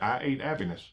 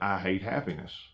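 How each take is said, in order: First: The h sounds are left out. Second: The h sounds are clearly pronounced. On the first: "without the H's" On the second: "the statement is"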